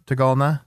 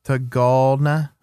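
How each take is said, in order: First: Said in the usual way. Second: Tagalna drawn out slowly as "tuh-GOLD-nuh"; slow, deliberate Tagalna with a long middle syllable; careful pronunciation attempt. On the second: Shown as a demonstration. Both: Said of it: "how you pronounce it".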